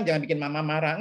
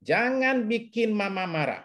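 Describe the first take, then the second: First: Said in the usual way. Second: Put-on slow, stern "Jangan bikin mama marah" like a mother warning her child; mock scolding mother. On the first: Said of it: "Jangan bilang". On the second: Counselor imitating a parent warning a child, slow mock stern. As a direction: lightly play a parent scolding a kid, slowly. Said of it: "ngomong sama anak gini".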